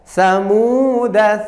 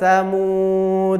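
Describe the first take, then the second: First: The word ends with a short vowel. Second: The word ends on a bare consonant. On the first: The reading continues without stopping. "kalau kita baca wasol maka dibaca pen pendek" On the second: The reading stops at this word. "Jika terpaksa waqaf maka dibaca su sukun menjadi samud"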